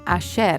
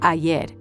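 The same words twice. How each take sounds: First: The y is said like sh, Argentine style. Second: The y is said like a y.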